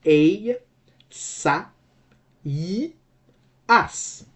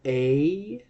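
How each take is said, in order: First: "A, sa, i, as", each syllable set apart by a pause; four separate syllables. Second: ASAIAS with "ai" as one gliding diphthong; three syllables. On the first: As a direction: split the vowels, giving "i" its own beat. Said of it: "it will have four syllables". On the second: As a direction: spell out "Asaias" in three beats, a-sai-as. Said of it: "three syllables". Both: Shown as a demonstration.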